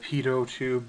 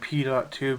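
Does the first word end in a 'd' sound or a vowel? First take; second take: vowel; 'd' sound. First: The first word ends with a vowel sound. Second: The first word ends with a 'd' sound. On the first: The speaker calls it right. "instead of" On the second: The speaker calls it wrong. "I know I'm gonna be saying this wrong"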